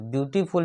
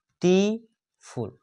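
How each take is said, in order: First: Said in the usual way. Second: beautiful slow and higher, view - टी - फुल with gaps; three separate beats on beautiful; split into syllables. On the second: Shown as a demonstration. Teacher counting syllables for students, beautiful split into three sounds. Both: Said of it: "इसमें तीन sound उत्पन्न होता है".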